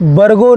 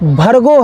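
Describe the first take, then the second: First: The first consonant is a plain unaspirated b. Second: The first consonant is a breathy aspirated bh. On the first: The speaker calls it wrong. "बरगो नहीं" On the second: The speaker calls it right. "भर्गो है"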